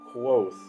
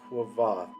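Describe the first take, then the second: First: The name is said without a V sound. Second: The name is said with a V sound. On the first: "I would just pronounce it Quoth" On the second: "create that Quoth sound with the V"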